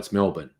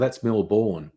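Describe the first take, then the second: First: The second syllable is short and reduced. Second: The second syllable is said fully, as spelled. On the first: It is the local way of saying it. The speaker calls it right. "No, it's Melbourne" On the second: It is read from the spelling by outsiders. The speaker calls it wrong. "look at it and say, "Well, that's Melbourne," which makes absolute sense"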